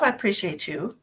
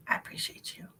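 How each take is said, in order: First: Said in the usual way. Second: Soft breathy whisper of thanks; hushed whispered thank-you. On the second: Shown as a demonstration. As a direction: whisper it like a little secret.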